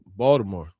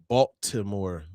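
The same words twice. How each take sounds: First: The t sounds like a d. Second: The t sounds like a clear t. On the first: This is how locals say it. "we say it with the B A L D I" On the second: This is the supposedly proper way. "it's supposed to be like Baltimore apparently"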